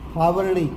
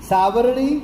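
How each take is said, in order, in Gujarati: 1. આ શબ્દ અઘોષ h અવાજથી શરૂ થાય છે. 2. આ શબ્દ s અવાજથી શરૂ થાય છે.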